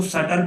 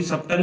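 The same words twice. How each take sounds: First: सटल said with a silent b, sa-tal; correct pronunciation. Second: सब्टल said with the b sounded, sub-tal; wrong pronunciation. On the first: Teacher gives students the right way, सटल with a silent b. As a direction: say सटल and drop the b in the middle. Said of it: "बीच में silent रहता है". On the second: Teacher shows students the wrong way, सब्टल with the b sounded. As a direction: pronounce सब्टल with a clear b in the middle. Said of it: "सब्टल नहीं पढ़ेंगे". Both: Shown as a demonstration.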